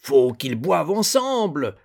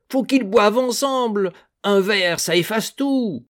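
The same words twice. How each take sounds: First: Put-on louder, higher drunken plea; drunk pleading. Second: Put-on much higher, loud drunken cry; drunken insistence. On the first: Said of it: "s'épuisait à prêcher la réconciliation". (le père Piron ivre prêche la réconciliation) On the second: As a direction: push the drunk plea harder. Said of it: "tout suant d'alcool". (Piron ivre insiste, plus aigu et plus fort) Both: A narrator's reading.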